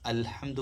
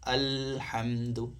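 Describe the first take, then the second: First: The L sound is short and quick. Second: The L sound is held noticeably longer. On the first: The speaker calls it wrong. "അൽഹംദു പറഞ്ഞാൽ പോരാ" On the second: The speaker calls it right. "ഒരു അര സെക്കൻഡ് അധികം പറയണം"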